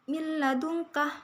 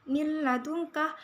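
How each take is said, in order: No difference in how they are said.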